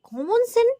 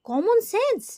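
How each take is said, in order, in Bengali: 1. শেষ শব্দটি 's' ধ্বনি ছাড়া শেষ হয়। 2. শেষ শব্দটি 's' ধ্বনি দিয়ে শেষ হয়। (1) "কমন সেনটা" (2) "ওটাকে কমন সেন্স বলে"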